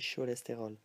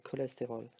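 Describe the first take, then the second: First: The first sound is sh. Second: The first sound is k. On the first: The speaker calls it wrong. "We don't say cholesterol" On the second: The speaker calls it right. "We say cholesterol, like in English"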